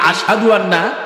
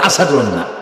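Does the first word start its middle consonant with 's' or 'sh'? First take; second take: sh; s. First: The middle consonant is a 'sh' sound. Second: The middle consonant is a plain 's' sound. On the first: This is the form he could not manage. "আসাদু আন্না আজান দিতে পারতেন না" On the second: This is how he actually said it. "বলে আসাদু আন্না"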